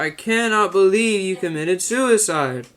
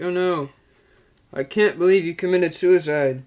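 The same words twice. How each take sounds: First: Slow, high, stilted line reading; Neil Breen impression. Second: Neil Breen impression. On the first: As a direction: overact it like a bad film. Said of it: "He's like". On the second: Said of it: "he's like".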